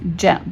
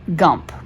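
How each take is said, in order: First: The word begins with a J sound. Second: The word begins with a hard G sound. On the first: The speaker calls it right. "J does not say G, right? J always says J" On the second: The speaker calls it wrong. "I noticed that you read jump, gump, right?"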